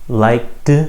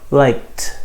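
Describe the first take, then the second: First: The word ends with a voiced D sound. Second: The word ends with an unvoiced T sound. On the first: The speaker calls it wrong. "The first way uses a D sound" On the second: The speaker calls it right. "the second way uses a T sound"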